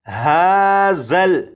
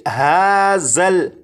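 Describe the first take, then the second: No difference in how they are said.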